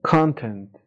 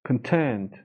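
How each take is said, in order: First: The stress is on the first syllable. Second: The stress is on the second syllable. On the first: It means an amount. "وقتی استرس رو بیاریم رو بخش اول معنی مقدار میده" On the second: It means satisfied or pleased. "ولی content"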